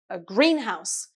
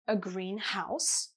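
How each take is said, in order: First: The stress falls on green. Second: The stress falls on house. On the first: A building where plants are grown. "Usually the stress is on the first syllable in compound nouns" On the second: A house that is colored green. "a simple adjective plus a noun"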